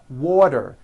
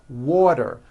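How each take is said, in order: No difference in how they are said.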